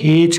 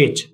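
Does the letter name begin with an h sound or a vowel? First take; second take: h sound; vowel. First: The letter name begins with an h sound. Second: The letter name begins with a vowel sound. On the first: This is the Australian way. "जब Australian में जाएंगे तो इसको हेच करते हैं" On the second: This is the British and American way. "British और American दोनों में इसको एच ही बोला जाएगा"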